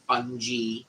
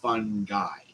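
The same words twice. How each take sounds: First: The word does not end like 'guy'. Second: The word sounds like 'fun guy'. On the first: The speaker calls it wrong. "not fungi or fungi or anything like that" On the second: The speaker calls it right. "It's fungi. As in, woohoo, he's a fun guy"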